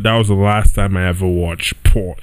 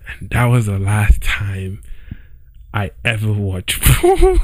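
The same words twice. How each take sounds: First: Said in the usual way. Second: Cracking up on the word porn; laughing. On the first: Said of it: "I literally cannot say this with a straight face". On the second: Real, not acted. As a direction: try to stay serious but break into a laugh. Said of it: "I can't even say this with a straight face".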